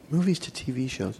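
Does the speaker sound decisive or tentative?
tentative. It sounds tentative, as if thinking aloud. He is still considering the choice. "Were you thinking to yourself at first"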